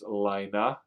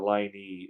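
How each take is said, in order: First: The name sounds like 'Lee-na'. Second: The name sounds like 'Line-ee'. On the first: The speaker calls it right. "It's Lina" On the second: The speaker calls it wrong. "or Line E"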